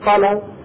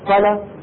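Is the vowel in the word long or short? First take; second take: short; short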